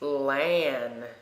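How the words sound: It is said with an American pronunciation. The speaker calls it wrong. "some Americans pronounce it"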